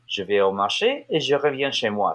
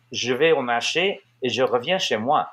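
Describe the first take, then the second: First: French tune rising to "marché", then back down to "moi"; native French intonation. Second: French with emphatic American tune, punching "marché" and "moi"; American intonation in French. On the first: Showing how the French people said it, up then down. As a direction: lift "marché" up, let "chez moi" fall back down. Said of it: "sort of goes up and then back down". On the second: Showing what you don't say in French, American intonation. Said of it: "You don't say". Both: Shown as a demonstration.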